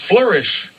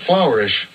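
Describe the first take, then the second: First: The first syllable sounds like flur. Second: The first syllable sounds like the word flour. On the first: The speaker calls it right. "The word is flourish" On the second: The speaker calls it wrong. "not flourish"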